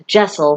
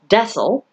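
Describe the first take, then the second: First: The word begins with a J sound. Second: The word begins with a D sound. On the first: The speaker calls it right. "but it is pronounced Jessel" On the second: The speaker calls it wrong. "it is not pronounced Dessel"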